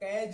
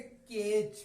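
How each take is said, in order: First: The vowel sounds like the one in 'cat'. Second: The vowel sounds like the one in 'day'. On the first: The speaker calls it wrong. "इसको आप कैज नहीं पढ़ेंगे" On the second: The speaker calls it right. "इसको पढ़ेंगे केज"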